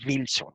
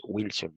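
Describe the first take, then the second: First: Wilson said as Vilson, with a V; V pronunciation. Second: Said in the usual way. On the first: Shown as a demonstration. Teacher shows the wrong way to say Wilson, with a V. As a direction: start Wilson with a buzzing V instead of W. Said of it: "no pronunciamos". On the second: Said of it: "lo pronunciamos Wilson".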